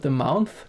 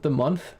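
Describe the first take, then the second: First: "month" said as "mounth", rising at the end; Transylvanian vowel shape. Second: Said in the usual way. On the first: Shown as a demonstration. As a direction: make "month" rhyme with "south". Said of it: "but the month". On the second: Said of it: "not the month".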